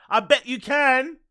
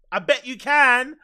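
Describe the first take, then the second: No difference in how they are said.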